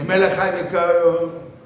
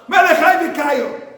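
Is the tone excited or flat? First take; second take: flat; excited. First: It is said flatly, without excitement. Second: It is said with great excitement.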